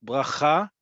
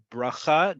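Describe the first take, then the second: First: "Bracha" with stress on "cha", first way of saying resh; first resh variant. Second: "bracha" slow, with the other resh, stress on "cha"; change the r sound in "bracha", keep the final stress; second resh variant. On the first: Teacher showing resh variants to students, "Bracha" stressed on its last syllable. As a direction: lift the final syllable of "Bracha". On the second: Teacher showing resh variants to students, "bracha" with the alternative resh. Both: Shown as a demonstration. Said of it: "depending on how you say the letter resh".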